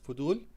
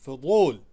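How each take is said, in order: First: The middle consonant is a plain, light dh sound. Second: The middle consonant is a heavy, emphatic d sound. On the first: The speaker calls it wrong. "you can say fudul with dh" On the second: The speaker calls it right. "the correct word is fudul"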